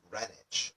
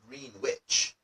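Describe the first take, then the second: First: The W is silent in the middle. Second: The W sound is pronounced in the middle. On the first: The speaker calls it right. "almost like it was spelled G R E N I C H" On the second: The speaker calls it wrong. "it looks like it should be pronounced Greenwich"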